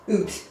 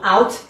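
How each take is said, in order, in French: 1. La voyelle est plus haute, à la canadienne. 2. La voyelle sonne comme l'anglais standard. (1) "c'est un peu ce son-là" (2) "Pareil pour"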